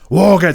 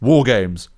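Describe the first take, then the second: First: It is said with the most intensity. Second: It is said with the least intensity.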